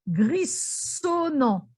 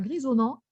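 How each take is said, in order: First: The middle consonant is a hissing s sound. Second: The middle consonant is a buzzing z sound. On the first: The speaker calls it wrong. "s'il y avait eu deux S à grisonnant, j'aurais prononcé grissonnant" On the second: The speaker calls it right. "entre deux voyelles avec un seul S, ça se prononce toujours Z"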